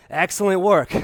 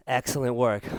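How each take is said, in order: First: Upbeat, pumped-up praise; energetic praise. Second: Soft, lower, relaxed praise; calm praise. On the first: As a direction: cheer them on mid-workout. Peak of the jump set. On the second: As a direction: praise them gently as they rest. Quiet cool-down praise. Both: Real, not acted.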